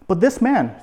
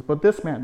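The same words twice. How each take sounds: First: "this" punched higher and louder, falling on "man"; pointed emphasis. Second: Said in the usual way. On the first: Shown as a demonstration. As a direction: lean hard on "this" as if pointing at him. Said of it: "pointing at Jesus". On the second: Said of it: "not pointing, but saying".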